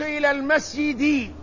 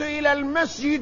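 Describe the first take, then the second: First: The last word ends with an i vowel. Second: The last word ends without an i vowel. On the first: The speaker calls it right. "الاسم الذي يدخل عليه حرف الجر مجرور" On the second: The speaker calls it wrong. "لا يجوز أن تقول"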